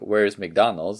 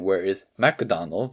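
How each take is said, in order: First: It is said with a natural English pronunciation. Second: It is said with a Japanese katakana-style pronunciation. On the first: Japanese listeners do not understand it. The speaker calls it wrong. "if you say it in your natural voice" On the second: Japanese listeners understand it. The speaker calls it right. "So you have to say"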